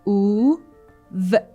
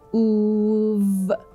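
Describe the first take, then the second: First: The two sounds are said separately with a pause. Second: The two sounds are blended without a pause. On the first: "First oo and then v"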